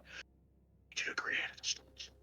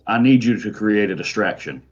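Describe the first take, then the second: First: It is whispered very quietly. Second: It is said aloud in a normal voice.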